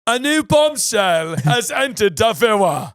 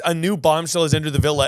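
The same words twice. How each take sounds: First: It is said in a put-on announcer voice. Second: It is said in a normal speaking voice.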